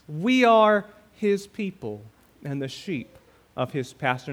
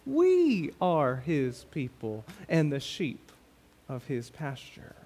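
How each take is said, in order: First: The word 'we' carries no special stress. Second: The word 'we' is clearly stressed.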